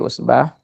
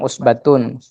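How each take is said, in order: First: The word ends in a short 'ah' sound. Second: The word ends in a full 'atun' sound. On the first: The reader stops at this word. The speaker calls it right. "kita wakaf di usbah" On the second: The reading carries on without a stop. The speaker calls it wrong. "jangan kita nanti bacanya usbatun"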